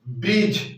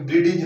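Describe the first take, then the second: First: No separate D sound is pronounced before the end. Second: A separate D sound is pronounced before the end. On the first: The speaker calls it right. "शुद्ध बोलेंगे तो बोलेंगे ब्रिज" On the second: The speaker calls it wrong. "यानी कि ब्रिडिज ना"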